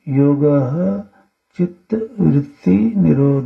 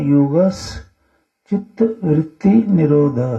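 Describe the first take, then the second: First: The first word is said separately without a joining sound. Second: The first word runs into the next with a joining sound. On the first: "संधि विच्छेद करके" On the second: "ऐसे तो उच्चारण योग है ना"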